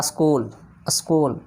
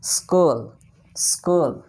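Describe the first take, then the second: First: स्कूल with an added a, askool; wrong pronunciation. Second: स्कूल said skool, no lead vowel; स्कूल as in school; correct pronunciation. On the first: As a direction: mimic the wrong स्कूल with a lead vowel. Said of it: "स्कूल है ही नहीं". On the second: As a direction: say स्कूल starting straight on s. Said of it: "वो तो हिंदी है". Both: Shown as a demonstration.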